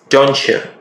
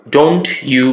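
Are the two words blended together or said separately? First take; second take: blended; separate. First: The two words blend into one reduced sound. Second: The two words are said separately and fully.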